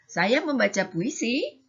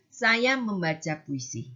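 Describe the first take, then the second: First: The sentence is said with a questioning tune. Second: The sentence is said with a flat, level tune. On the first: It asks something. "yang kedua bertanya, agak ada kan ada tanyanya" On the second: It states a fact. "yang pertama datar"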